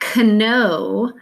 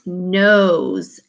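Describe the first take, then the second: First: The word begins with a pronounced K sound. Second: The word begins with a plain N sound. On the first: The speaker calls it wrong. "it's not kno" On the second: The speaker calls it right. "it's knows"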